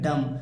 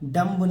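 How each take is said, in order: First: The word ends on m with no b. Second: The word ends with an audible b sound. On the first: The speaker calls it right. "इसे क्या पढ़ेंगे, डम" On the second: The speaker calls it wrong. "डम्ब नहीं पढ़ना है"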